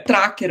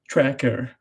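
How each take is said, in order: First: The word is pronounced the Brazilian Portuguese way. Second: The word is pronounced the English way. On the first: "aqui no Brasil, é Tracker" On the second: "ela falou do jeito que se falaria em inglês"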